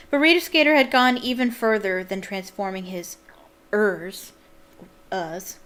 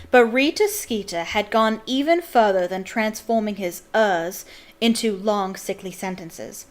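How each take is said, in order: First: American reading, "ers" with a clear r; American accent. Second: Put-on British accent, R's dropped. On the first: Real, not acted. Reader reading a sentence from the book, American accent. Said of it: "when I read it in my American accent". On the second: Shown as a demonstration. Reader rereading the sentence to explain it, British accent. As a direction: read it in a British accent, "uhs" for "ers". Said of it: "I'll say it with a British accent".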